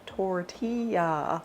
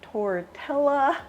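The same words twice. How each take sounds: First: The double L is said as a Y sound. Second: The double L is said as an L sound. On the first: The speaker calls it right. "I know it's pronounced tortilla" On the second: The speaker calls it wrong. "I know that's not how you pronounce it"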